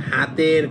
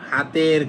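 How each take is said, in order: No difference in how they are said.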